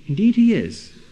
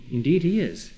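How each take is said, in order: First: Indeed he is, thrown out louder and higher with weight on he; emphatic loud reply. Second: Said in the usual way. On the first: Real, not acted. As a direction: hit it hard, like slamming down the final word. Answers the objection again, emphatically.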